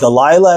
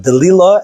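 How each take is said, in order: First: The name has its familiar English pronunciation. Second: The name has its Hebrew pronunciation. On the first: This is the name as commonly known today. "as it's known now" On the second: This is the name as it appears in the original scripture. "as it's in the Torah uh, pronunciation"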